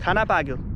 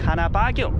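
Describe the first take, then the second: First: It is said with a plain statement tune. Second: It is said with a questioning tune. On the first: The speaker says the food is cooked. "इसका मतलब ये हुआ कि खाना पक गया है" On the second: The speaker asks whether the food is cooked. "मैं पूछ सकता हूँ कि"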